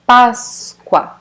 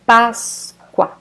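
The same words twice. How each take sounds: No difference in how they are said.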